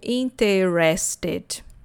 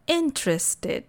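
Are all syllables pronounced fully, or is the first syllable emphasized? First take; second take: all syllables; first syllable. First: Every syllable is pronounced fully and evenly. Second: The first syllable is stronger and longer. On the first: The speaker calls it wrong. "porque queremos falar todas as sílabas" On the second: The speaker calls it right. "A primeira sílaba é mais forte e mais longa"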